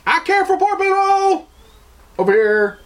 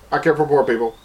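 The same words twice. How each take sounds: First: Much higher, showy mock voice crying I care; hammed-up falsetto show of caring; mocking virtue signaler. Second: Said in the usual way. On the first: Mocking people who post about caring, high falsetto parody. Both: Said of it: "the instant response of everybody is".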